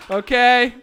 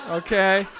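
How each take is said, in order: First: Okay? pushed out louder and rising. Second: Said in the usual way. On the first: Shown as a demonstration. Host pressing the crowd for agreement, louder. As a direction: call Okay? out to the back of the room. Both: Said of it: "Okay? repeated louder".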